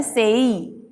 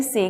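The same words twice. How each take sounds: First: सेई gliding from e into ee; diphthong. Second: से with one short pure e; wrong pronunciation. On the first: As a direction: stretch सेई out as say-ee. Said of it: "हमें पढ़ना है". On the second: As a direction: say से without any glide. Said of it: "गलत है". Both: Shown as a demonstration.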